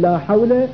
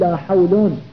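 First: The second word ends with a short a vowel. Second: The second word ends with an un sound. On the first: The negation applies to the whole category. "يجوز البناء على الفتح تقول" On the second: The negation works like 'is not'. "ويجوز الرفع فتقول"

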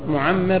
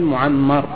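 First: The vowel after the doubled m is 'i'. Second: The vowel after the doubled m is 'a'. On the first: It names the one who grants long life. The speaker calls it wrong. "الخطأ أن تقول معمر" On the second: It names the one who has been given long life. The speaker calls it right. "والصواب أن تقول معمر"

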